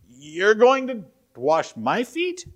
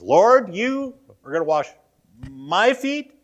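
First: High, slow question stretched out, rising on going; slow incredulous question. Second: High, loud stunned question, rise on my; emphatic disbelief. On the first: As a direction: draw it out in disbelief. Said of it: "He says". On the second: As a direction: push back in disbelief. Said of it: "he is emphatic about that". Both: Retold or imitated.

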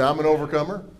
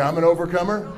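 First: Said in the usual way. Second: "I'm an overcomer" said like you mean it, firm and sure; with conviction. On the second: Shown as a demonstration. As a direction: declare "I'm an overcomer" with real belief. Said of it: "Say it like you mean it".

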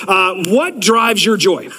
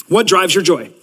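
First: Slow question, leaning on "what"; slow, weighty question. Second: Said in the usual way. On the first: Shown as a demonstration. Pastor poses the month's question to the church, slow and weighty. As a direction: let "what drives your joy" sink in slowly, stressing "what".

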